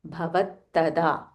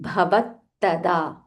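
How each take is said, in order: Both takes have the same delivery.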